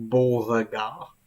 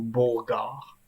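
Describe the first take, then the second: First: The middle E is pronounced as a syllable. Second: The middle E is dropped from the name. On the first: This is how bearers of the name say it today. "le E au milieu est prononcé" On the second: This is how the name was probably said in the past. "d'éviter de prononcer le E au milieu"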